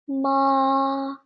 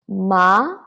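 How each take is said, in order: First: The pitch stays high and level. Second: The pitch rises from middle to high. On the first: "So it is high and flat" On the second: "it is a rising tone"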